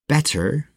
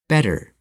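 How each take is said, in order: First: The middle consonant is a crisp, hard T. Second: The middle consonant is a quick, soft D-like flap. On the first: The speaker calls it wrong. "Instead of saying better" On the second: The speaker calls it right. "we say better"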